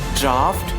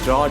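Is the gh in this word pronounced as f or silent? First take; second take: f; silent. First: The gh is pronounced as an f sound. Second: The gh is silent, rhyming with out. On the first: The speaker calls it right. "that pronunciation will comes F. So correct pronunciation is draft" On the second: The speaker calls it wrong. "people usually say a drought. Drought is not suitable word"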